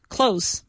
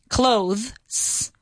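First: The ending is a plain s without th. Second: The ending is a th followed by s. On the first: "So a lot of people say clothes"

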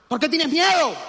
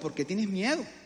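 First: It sounds annoyed and dismissive. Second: It sounds gentle and caring.

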